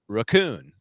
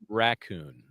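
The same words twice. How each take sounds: First: The stress is on the second syllable. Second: The stress is on the first syllable. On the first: This is how the witness said it. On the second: This is how the witness did not say it.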